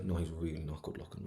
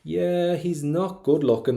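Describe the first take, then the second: First: Dropped, much quieter aside; poet's private aside, said under the voice; confiding inner thought. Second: High, loud, drawn-out concession; breezy open admission. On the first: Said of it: "you can really hear her internal thoughts". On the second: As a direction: poet announcing it aloud, stretched and high. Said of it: "she's being really, really honest". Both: Acted.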